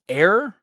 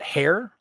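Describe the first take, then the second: First: The word begins with a vowel, no H sound. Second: The word begins with an audible H sound. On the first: The speaker calls it right. "it's air, pronounced with a silent H" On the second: The speaker calls it wrong. "not hair"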